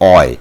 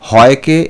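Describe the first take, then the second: First: The word begins directly with a vowel. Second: The word begins with an 'h' sound.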